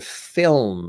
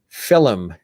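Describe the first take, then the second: First: It is said in a plain American way. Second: It is said in an Irish-influenced way. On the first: This is how the speaker says it. "as opposed to film" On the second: This is how the Irish side of the family says it. "my father has always said film"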